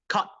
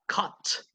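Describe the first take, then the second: First: The final t is barely heard, American style. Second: The final t is clearly released, British style. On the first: "because it didn't sound very much" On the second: "that is British"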